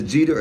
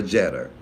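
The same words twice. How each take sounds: First: Jeter said as JEE-ter, long ee; first-syllable long ee. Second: Jeter said as JET-er, short e; first-syllable short e. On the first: Host checking a viewer's name, Jeter as JEE-ter. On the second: Host offering the other name reading, Jeter as JET-er. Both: Shown as a demonstration. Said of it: "is it Jeter or Jeter".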